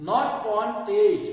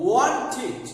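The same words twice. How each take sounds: First: "wanted" said loudly as "on-ted"; an e sound in the end of "wanted"; wrong -ted ending. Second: ওয়ান্টেড said loudly as "won-tid"; correct -id ending. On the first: Teacher rejects the common mistake, "wanted" ending in -ted. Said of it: "wanted না". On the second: Teacher gives viewers the right form, ওয়ান্টেড with -tid. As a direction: stress the word, ending ওয়ান্টেড in a short -tid. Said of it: "সঠিক উচ্চারণ হবে". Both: Shown as a demonstration.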